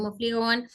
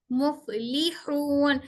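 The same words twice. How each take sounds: First: मुफलिहून slurred quickly, without placing the teeth for फ; hurried, soft मुफलिहून with a weak फ; careless flowing reading. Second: Deliberate, drawn-out मुफलिहून with a clear फ; careful correct reading. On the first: Teacher imitating how students usually rush it. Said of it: "हम ऐसे पढ़ते चले आते हैं". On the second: Teacher modelling the right articulation for students. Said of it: "मेरे दोनों दांत ऊपर के नीचे के होंठ की तरी को". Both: Shown as a demonstration.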